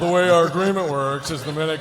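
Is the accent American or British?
British. It is read in a British accent. "British accent"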